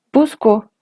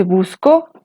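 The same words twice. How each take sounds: First: "busco" stressed on "bus", falling at the end; BUS-co, accent up front; first-syllable stress. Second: "busco" stressed on "co", rising at the end; bus-CO, accent at the end; final-syllable stress. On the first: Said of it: "el acento está en la primera sílaba". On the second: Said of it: "el acento está sobre la segunda sílaba". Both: Shown as a demonstration.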